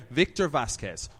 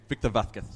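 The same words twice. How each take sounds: First: Said in the usual way. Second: Vázquez with a lisped z, VATH-keth; Castilian pronunciation. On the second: Shown as a demonstration. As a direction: Victor Vázquez in Spain Spanish, z as th. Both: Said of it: "who pronounces his name".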